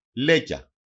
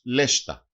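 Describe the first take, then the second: First: Said in the usual way. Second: Λέστα as LESH-ta, with "sht" in the middle; dialect variant pronunciation. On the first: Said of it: "Προφέρεται και ως λέστα". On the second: Shown as a demonstration. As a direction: say λέστα with a sh before the t. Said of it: "Προφέρεται και ως".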